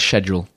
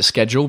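First: It is said in a British way. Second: It is said in an American way. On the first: "But the British way is schedule" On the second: "I still pronounce it schedule because"

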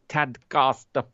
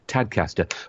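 First: Tadcaster is said in a non-local way. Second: Tadcaster is said the local Yorkshire way. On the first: The speaker calls it wrong. "I pronounced it wrong then" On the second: The speaker calls it right. "I'm supposed to be from Yorkshire"

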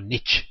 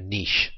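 First: The word is pronounced the American way. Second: The word is pronounced in a non-American way.

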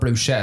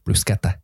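First: The word is said in an anglicised way. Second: The word is said in the Italian way. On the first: The speaker calls it wrong. "when you say it wrong" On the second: The speaker calls it right. "How do you pronounce it properly?"

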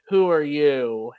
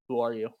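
First: It is yelled loudly across a room. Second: It is said calmly, without yelling.

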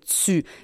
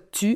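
First: The t has an s-like hiss, like ts. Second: The t is plain, with no hiss. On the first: This is how Quebecers say it. "on fait tu" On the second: This is how people from France say it. "On fait pas tu"

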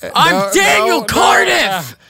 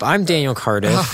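First: It is yelled loudly in an angry tone. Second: It is said at a calm, normal volume.

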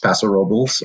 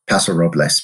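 First: Robles is pronounced in a local anglicized form. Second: Robles is pronounced the way it is spelled. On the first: This is the form locals use in the region. "Here in Paso, it's Paso Robles" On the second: This is the form used when introducing the region elsewhere. "that's how you read it on the bottle"

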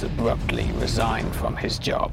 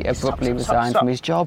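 First: It is said in a deep, dramatic voice. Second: It is said in an ordinary speaking voice. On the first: The speaker calls it right. "Can you go back into it, please?" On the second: The speaker calls it wrong. "You've lost your cinema voice"

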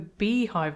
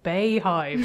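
First: The first syllable sounds like 'bee'. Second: The first syllable sounds like 'bay'. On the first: The speaker calls it right. "have the first syllable of her name as B" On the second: The speaker calls it wrong. "not the bayhive"

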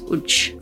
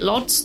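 First: The name is said with a Polish-style pronunciation. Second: The name is said with an English-style pronunciation. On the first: This is how the name is properly said locally. The speaker calls it right. "The correct way to say it is Łódź" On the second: This is how English speakers usually say it. The speaker calls it wrong. "We would probably pronounce it Lodz"

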